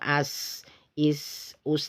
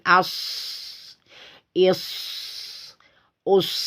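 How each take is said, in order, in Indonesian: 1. Bunyi s lembut dan lemah. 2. Bunyi s tajam dan mendesis. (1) "Tidak boleh uh, lemah" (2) "tajam ya"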